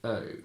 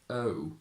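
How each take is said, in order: First: The lips barely move at the vowel's end. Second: The lips round strongly at the vowel's end. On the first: It is the older, traditional style. "I say O" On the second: It is the modern style. "instead of saying O"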